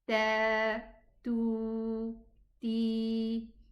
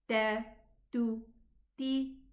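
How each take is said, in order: First: The vowels are long. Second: The vowels are short. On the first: "when I find an alif or a waw or a ya after it" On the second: "short pronunciation"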